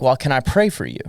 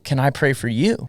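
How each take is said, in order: First: Said in the usual way. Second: "you" stressed with a rising question tune. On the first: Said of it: "I was like". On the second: Retold or imitated. Homeless man offers prayer back to him, stress on "you". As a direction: turn the question round, leaning on "you" as it rises. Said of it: "I've never had that before".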